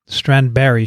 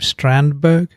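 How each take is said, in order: First: The name ends with a soft 'berry' sound. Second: The name ends with a hard final g sound.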